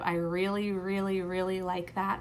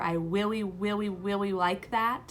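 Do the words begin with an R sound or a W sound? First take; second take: R sound; W sound. First: The R sounds are said as clear R sounds. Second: The R sounds are replaced by W sounds. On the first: The speaker calls it right. "instead of" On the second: The speaker calls it wrong. "a W for an R"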